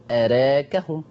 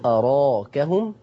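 First: أراكهم with the "aa" after ر tilted toward "e"; taqlil pronunciation. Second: أراكهم with a full open "aa" after the ر; fath pronunciation. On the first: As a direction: demonstrate أراكهم with taqlil, "raa" fronted to "ree". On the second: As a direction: say أراكهم slowly with a wide, unbent alif. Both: Shown as a demonstration. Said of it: "فيها فتح وتقليل".

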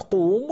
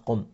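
First: قوم with a long, drawn-out oo before the m; long vowel. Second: قم with a short u, no lengthening; short vowel. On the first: Teacher showing students the form before vowel deletion, long vowel in قوم. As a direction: hold the oo in قوم. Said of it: "أولهما حرف مد". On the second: Teacher showing the form after deleting the long vowel, short u in قم. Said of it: "فحذفنا حرف المد". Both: Shown as a demonstration.

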